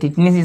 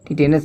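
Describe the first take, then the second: First: It is said as 'tit-nis' with a shortened middle. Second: It is said as 'ti-te-nas' with three clear syllables. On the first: This is the everyday way people say it. "टिटनिस इसको बोलते हो यार" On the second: This is the formal name of the disease. "टिटेनस नहीं जानते"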